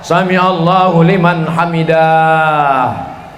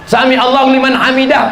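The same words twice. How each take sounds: First: The final word is stretched out long. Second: The final word is said short and clipped. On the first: The speaker calls it wrong. "saya pernah dengar imam sholat" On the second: The speaker calls it right.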